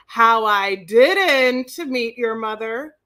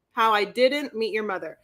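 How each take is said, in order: First: Title read. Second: Said in the usual way. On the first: Shown as a demonstration. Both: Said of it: "do the title of this for me".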